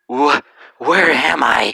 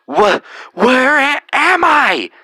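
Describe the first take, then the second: First: It is said at a normal, quiet volume. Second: It is yelled loudly.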